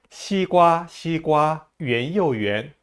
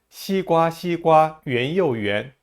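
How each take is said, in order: No difference in how they are said.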